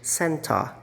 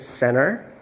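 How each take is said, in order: First: It is said in a British accent. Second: It is said in an American accent. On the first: "Ngayon sa British" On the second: "yung center na American kanina"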